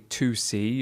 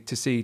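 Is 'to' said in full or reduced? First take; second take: full; reduced. First: The word 'to' is said in full with a clear vowel. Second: The word 'to' is reduced with a weak schwa vowel. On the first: The speaker calls it wrong. "We don't say to see" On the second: The speaker calls it right. "we say to see"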